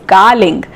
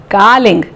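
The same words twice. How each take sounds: No difference in how they are said.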